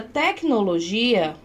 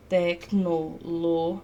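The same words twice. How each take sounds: First: Said in the usual way. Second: "tecnologia" very slow, low and softer, tec-no-lo-gi-a; syllable by syllable. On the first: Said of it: "Mas na palavra tecnologia". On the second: Shown as a demonstration. Teacher breaking the word down, slow syllable-by-syllable "tecnologia". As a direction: split "tecnologia" into separate, evenly held syllables. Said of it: "olha só".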